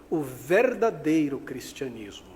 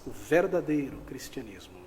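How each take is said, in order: First: "verdadeiro" drawn out slowly and punched; stress on verdadeiro. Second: Said in the usual way. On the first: Real, not acted. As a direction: stretch and hit "verdadeiro" with weight. Key phrase stressed, then repeated. (ênfase lenta e forte em "verdadeiro")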